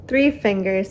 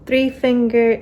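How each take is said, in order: First: Said in the usual way. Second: "finger" said without the plural s; "three finger", with no s at the end; wrong word ending. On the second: Real, not acted. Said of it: "oh no".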